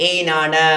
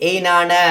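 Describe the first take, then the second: The two takes are said the same way.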